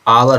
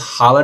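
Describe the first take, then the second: First: The word begins with a vowel sound. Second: The word begins with an h sound. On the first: The speaker calls it right. "आवर होता है" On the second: The speaker calls it wrong. "इसको हावर नहीं पढ़ना"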